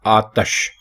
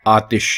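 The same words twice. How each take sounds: First: आतश with a short a, not i; correct pronunciation. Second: आतिश with an i in the second syllable; common pronunciation. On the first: Teacher giving the correct form: आतश with a. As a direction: say आतश, ta with a plain a. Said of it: "ज़ेर नहीं है ते के नीचे, बल्कि ते के ऊपर ज़बर". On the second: Teacher naming the usual form: आतिश with i. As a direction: say आतिश, ti with a clear i. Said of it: "दुरुस्त तलफ़ुज़ है आतश". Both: Shown as a demonstration.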